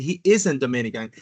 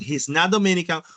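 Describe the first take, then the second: First: The word not is shortened onto is. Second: The word is is shortened onto he.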